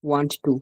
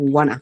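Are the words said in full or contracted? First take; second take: full; contracted. First: Both words are said fully and separately. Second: The two words are blended into one short word. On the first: "ওয়ান্ট টু না বলে" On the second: "আমরা বলবো ওয়ানা"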